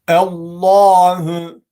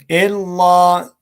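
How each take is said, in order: First: The word is said with a heavy, full sound. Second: The word is said with a light, thinned sound. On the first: The speaker calls it right. "Dolayısıyla kalın okumamız gerekiyor" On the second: The speaker calls it wrong. "Çok inceltenler oluyor"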